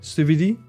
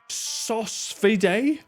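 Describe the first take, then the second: First: The first syllable sounds like 'soo'. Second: The first syllable sounds like 'sauce'. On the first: "Is it not pronounced in the French way?" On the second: "Is that how we're supposed to say it?"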